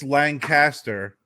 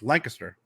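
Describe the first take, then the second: First: It uses the widespread general pronunciation. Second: It uses the local regional pronunciation. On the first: This is how outsiders say the name. "it's Lancaster to everyone else" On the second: This is how locals say the name. "when you're from where we are, it's Lancaster"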